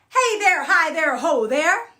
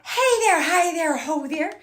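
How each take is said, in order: First: It is said with a full, clear voice. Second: It is said breathily, with air on each H.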